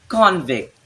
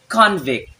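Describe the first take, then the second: No difference in how they are said.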